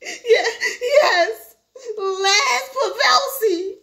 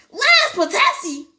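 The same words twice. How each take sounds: First: High, tearful, drawn-out reply; whimpering. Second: High, loud, drawn-out question; stunned disbelief. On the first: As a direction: whimper the name out slowly. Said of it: "Herbie whimpered". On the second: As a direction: blurt out the name in shock. Manager stunned by son's name. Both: Acted.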